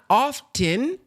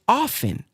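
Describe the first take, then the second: First: The T sound in the middle is pronounced. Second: The T sound in the middle is silent. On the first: The speaker calls it wrong. "She says it's not often" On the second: The speaker calls it right. "The T is silent"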